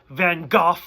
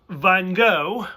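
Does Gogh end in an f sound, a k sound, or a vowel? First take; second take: f sound; vowel. First: Gogh ends in an f sound. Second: Gogh ends in a vowel, like go. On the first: This is how most of the episode says it. "you pronounce the G H like an F" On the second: This is how it is said in America. "So you say it like G O go"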